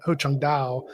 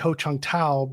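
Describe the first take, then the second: First: The last word begins with a D sound. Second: The last word begins with a T sound. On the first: The speaker calls it right. "It should be" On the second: The speaker calls it wrong. "I would say Ho Chung Tao, but it should"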